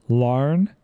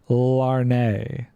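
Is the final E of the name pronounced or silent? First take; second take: silent; pronounced. First: The name ends on the n sound. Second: The name ends with an extra vowel syllable. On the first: The speaker calls it right. "the E is silent" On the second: The speaker calls it wrong. "It's not Larnay"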